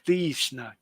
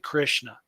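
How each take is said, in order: First: The first vowel is long, like 'ee'. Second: The first vowel is short, in an American way. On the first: It is the careful, proper way of saying it. The speaker calls it right. "But Krishna" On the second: It is the lazy, everyday way of saying it. The speaker calls it wrong. "normally we're lazy and we just say Krishna. That's the American accent"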